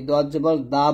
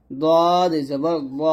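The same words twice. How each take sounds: First: দা with an open aa, light and plain; thin daa. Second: Very slow দদ জবর দ, rounded heavy o; thick do. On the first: Teacher mimics a common mistake, thin daa. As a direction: say দা as Bengali aa. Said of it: "এই প্রত্যেকটা উচ্চারণ কিন্তু ভুল". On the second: Teacher leads repeat-after-me, slow thick do. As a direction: draw it out, ending thick on দ. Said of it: "সুন্দরভাবে উচ্চারণটা করতে হবে". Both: Shown as a demonstration.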